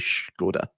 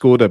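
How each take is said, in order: First: The word begins with an 'sh' sound. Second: The word begins with a plain 's' sound. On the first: This is the proper way to say it. The speaker calls it right. "but it's actually Skoda" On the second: This is how most people say it. The speaker calls it wrong. "everybody says Skoda"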